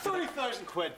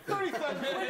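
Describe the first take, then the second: First: Said in the usual way. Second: Higher, laughing disbelief; outraged squeal at the sum; incredulous. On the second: Acted. Comedian repeats the translator's pay in laughing disbelief.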